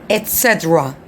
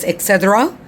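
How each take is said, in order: First: The first word has a clear T sound. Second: The first word lacks a clear T sound. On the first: The speaker calls it right. "It's et cetera with T" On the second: The speaker calls it wrong. "No, it's not et cetera"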